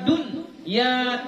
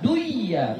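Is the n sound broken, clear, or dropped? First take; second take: broken; dropped. First: A gap cuts the n from ya. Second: The n is dropped and merged into ya. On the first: "dun ya terputus, gak boleh" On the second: "jangan dibaca duiya ... gak boleh"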